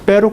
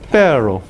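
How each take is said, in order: First: The r is a plain tongue-tip tap. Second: The r is made with the tongue curled back. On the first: "en vez de pero" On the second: "Siempre tratan de producir retroflexión del sonido"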